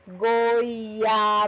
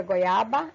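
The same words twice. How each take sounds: First: "Goiaba" stretched out slowly, sound by sound; teacher's slow, fully sounded "Goiaba"; every letter pronounced. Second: Said in the usual way. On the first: Shown as a demonstration. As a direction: draw out each sound of "Goiaba" on a level tone. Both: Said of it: "eu consigo pronunciar todas as letras".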